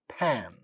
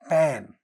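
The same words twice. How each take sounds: First: The first consonant has a puff of air. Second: The first consonant has no puff of air. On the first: "the initial sounds get aspirated" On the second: "without aspiration"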